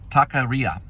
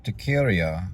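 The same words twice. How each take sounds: First: Taqueria said as tah-kuh-REE-uh; corrected pronunciation. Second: Taqueria said wrong, as tuh-KEER-ee-uh; mispronounced Taqueria. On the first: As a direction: open Taqueria with "tock", then stress REE. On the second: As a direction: stress Taqueria on a middle KEER, losing the opening "tock". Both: Real, not acted. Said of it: "I said it wrong".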